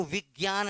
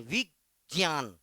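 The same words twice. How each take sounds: First: विज्ञान said "vig-gyaan", with a hard g; common VIGYAN pronunciation. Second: विज्ञान slow and split, "vij... jiyaan"; VIJNYAN pronunciation. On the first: (विज्ञान का "विग्यान" उच्चारण) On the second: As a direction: stretch विज्ञान out with a clear j, lower pitch. (विज्ञान को धीरे, "ज" के साथ बोलना) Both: Shown as a demonstration. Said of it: "तो विज्ञान नहीं".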